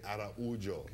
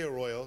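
First: The name is said like 'ah-rah-OO-zhoo'. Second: The name is said like 'ah-ROY-oh'. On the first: The speaker calls it right. "say Araujo. Okay. That's the Brazilian way" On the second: The speaker calls it wrong. "don't say Arroyo"

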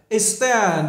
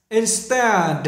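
Both takes have the same delivery.

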